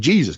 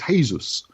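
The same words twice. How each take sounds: First: It is pronounced the English way, as spelled. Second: It is pronounced the Spanish way. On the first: "we'd say Jesus because that's how it's spelled" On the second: "but Spanish it's Jesus"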